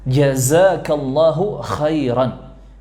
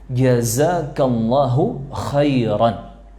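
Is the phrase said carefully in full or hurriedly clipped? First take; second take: careful; careful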